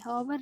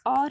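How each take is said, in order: First: The word begins with an h sound. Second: The word begins with a vowel sound. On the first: The speaker calls it wrong. "हॉवर नहीं कहेंगे, हॉवर गलत हो जाएगा" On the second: The speaker calls it right. "It's और है वो"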